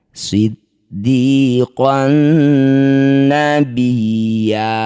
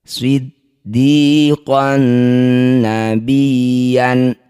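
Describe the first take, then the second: First: The last word ends with a long a. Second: The last word ends with an n sound. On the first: The reading stops here. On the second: The reading continues without stopping.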